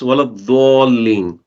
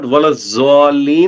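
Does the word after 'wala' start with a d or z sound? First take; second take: d sound; z sound. First: The word after wala starts with a d sound. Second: The word after wala starts with a z sound. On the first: The speaker calls it right. "it's waladhalin" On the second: This is how it is generally read in Pakistan. The speaker calls it wrong. "It's not waladzalin"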